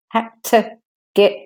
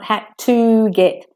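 First: The word to has a short schwa vowel. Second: The word to has a full long vowel. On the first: The speaker calls it right. "The O in two becomes de-stress, the schwa, shortened" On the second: The speaker calls it wrong.

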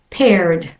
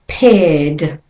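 First: An R sound is pronounced before the D. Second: No R sound is pronounced before the D. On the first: "for those practicing an American accent, and it goes from the R to the D sound" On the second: "For a British and Australian accent, ... the R is not pronounced"

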